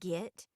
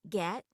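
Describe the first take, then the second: First: The vowel sounds like 'ih'. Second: The vowel sounds like 'eh'. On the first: This is the local form. "becomes get" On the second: This is the standard form. "get becomes"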